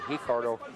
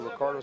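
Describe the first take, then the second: First: Ricardo starts with a Brazilian H sound. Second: Ricardo starts with an English R sound.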